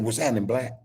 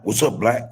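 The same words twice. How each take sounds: First: The right way, easy What's happening, black; casual greeting. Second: What's up, black as the greeting he does not use; the other greeting, set aside; wrong greeting. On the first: Showing listeners the greeting he uses, laid back. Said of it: "That's exactly how I said". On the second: Showing listeners the greeting he avoids, plain. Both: Shown as a demonstration.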